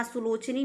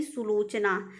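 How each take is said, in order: First: सुलोचनी ending in nee; wrong form सुलोचनी. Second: सुलोचना ending in naa; correct form सुलोचना. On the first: Teacher rejects the form, nee ending on सुलोचनी. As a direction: end सुलोचनी on long ee. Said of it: "नहीं". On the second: Teacher corrects students, naa ending on सुलोचना. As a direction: end सुलोचना on long aa. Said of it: "सुलोचनी नहीं". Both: Shown as a demonstration.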